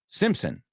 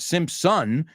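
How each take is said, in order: First: The last syllable has a reduced vowel. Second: The last syllable has a full vowel. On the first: The speaker calls it right. "it's Simpson" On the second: The speaker calls it wrong. "it's not Simpson"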